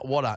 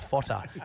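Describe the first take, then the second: First: The word begins with a W sound. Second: The word begins with an F sound. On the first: The speaker calls it right. "it's water" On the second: The speaker calls it wrong. "not fotter"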